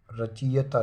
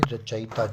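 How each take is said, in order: First: रचयिता as ra-chee-ya-taa; wrong form. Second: रचयिता as ra-cha-i-taa; correct form. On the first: Teacher reading the error, रचयिता as ra-chee-ya-taa. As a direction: say रचयिता with ee before the y. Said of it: "रचयिता नहीं". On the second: Teacher correcting it, रचयिता as ra-cha-i-taa. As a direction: say रचयिता with short a, then i. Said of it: "छोटी की मात्रा". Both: Shown as a demonstration.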